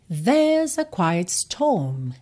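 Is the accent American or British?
British. It is said with a British accent.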